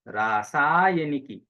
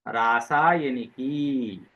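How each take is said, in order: First: The final vowel is cut short. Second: The final vowel is held long. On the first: It addresses someone directly. The speaker calls it right. "हमने कहना है रासायनिकी। ये संबोधन है।" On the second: It names the thing as the subject. The speaker calls it wrong. "अब यहाँ पर की को लंबा नहीं करना है। अगर मैंने कहा रासायनिकी, तो ये प्रथमा एकवचन हो जाएगा।"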